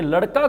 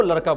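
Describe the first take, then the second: First: Said in the usual way. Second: लड़का pronounced "laraka". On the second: Retold or imitated. Teacher quoting the pupil's one odd word, लड़का with r. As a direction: put r where लड़का has ड़. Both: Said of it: "ड को र नहीं बोल रही है".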